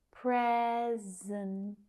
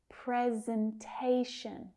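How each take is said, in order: First: "Presentation" slowly broken up, PRE-zen-TAY-shun; primary, secondary stress. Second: Said in the usual way. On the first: Shown as a demonstration. Teacher showing students both stresses, "Presentation" drawn out by syllable. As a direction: stretch PRE and TAY in "Presentation", pausing between. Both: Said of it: "a primary and a secondary stress".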